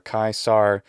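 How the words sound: It ends with an American English r sound. "or kaisar if it's American"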